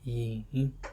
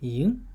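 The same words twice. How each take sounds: First: The pitch dips low and then rises. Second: The pitch rises from mid to high. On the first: "third would be yin" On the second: "second tone would be yin"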